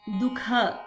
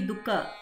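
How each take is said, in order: First: The middle consonant is a stressed, aspirated kh. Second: The middle consonant is a plain unaspirated k. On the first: The speaker calls it right. "We should add a stress in kha" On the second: The speaker calls it wrong. "It should not be Dukha. It should not be first ka"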